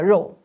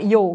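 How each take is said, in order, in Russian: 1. Слово начинается со звука 'r'. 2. Слово начинается со звука 'y'. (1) "вместо «роу» — мясо" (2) "говорят, например, «йоу» вместо «роу»"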